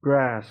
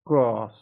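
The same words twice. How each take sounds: First: American "Grass" with a front A, as in cat; short-A American vowel in "Grass"; American pronunciation. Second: British "Grass" with an open AH, grahss; broad-A British vowel in "Grass"; British pronunciation. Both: Shown as a demonstration.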